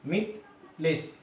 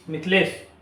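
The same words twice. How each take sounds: First: Mithilesh slowly divided as मिथ ... लेश; split in two parts. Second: Said in the usual way. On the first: Shown as a demonstration. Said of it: "दो part में इसको हम बांट के". (मिथलेश को दो हिस्सों में, धीरे से, मिथ ... लेश) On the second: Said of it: "लिखेंगे और पढ़ेंगे".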